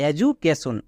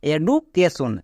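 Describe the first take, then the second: First: "এডুকেশন" as e-ju-ke-shon, j in place of d; correct j sound. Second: "এডুকেশন" with a hard d, e-du-ke-shon; common mispronunciation. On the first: Teacher gives the actual pronunciation, "এডুকেশন" as e-ju-ke-shon. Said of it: "actually এর উচ্চারণ হবে". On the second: Teacher shows the mistake many make, "এডুকেশন" with hard d. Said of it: "একে অনেকে ভুল করে বলে". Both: Shown as a demonstration.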